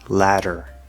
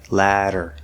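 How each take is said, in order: Both takes have the same delivery.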